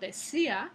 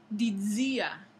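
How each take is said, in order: First: The middle consonant is a plain s. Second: The middle consonant is a voiced dz affricate. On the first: This is the present-day pronunciation. "lo que decimos hoy en día" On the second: This is the medieval pronunciation. "en la época medieval decían dizia"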